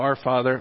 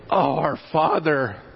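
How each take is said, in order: First: It is said flatly, like a rote recital. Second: It is said with heartfelt passion.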